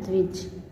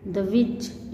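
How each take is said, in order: First: Said in the usual way. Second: द्विज as "da-vij"; split syllables. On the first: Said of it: "इसको इस तरह से". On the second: Shown as a demonstration. Teacher breaking down the conjunct, द्विज split up. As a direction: add a short vowel inside द्विज. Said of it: "इस तरह से".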